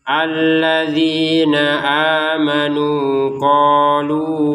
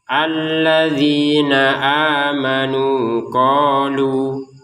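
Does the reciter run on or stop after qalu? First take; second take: run on; stop. First: It runs on from qalu into the next word. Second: It stops after qalu with a two-count vowel. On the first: "Kalau gabung" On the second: "kalau tidak gabung"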